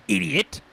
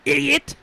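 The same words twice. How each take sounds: First: Mock yell. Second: High, loud screamed insult; shrill yell. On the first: Insulting game character. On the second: Acted. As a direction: shriek the insult. Repeated, louder.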